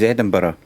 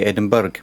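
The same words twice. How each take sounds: First: The ending is reduced, not said as spelled. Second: The ending is said fully, as spelled. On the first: The speaker calls it right. "My home city is Edinburgh" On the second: The speaker calls it wrong. "because there's a U R G H at the end, they say Edinburgh"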